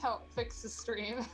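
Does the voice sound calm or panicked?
panicked. It is said in a panicked voice.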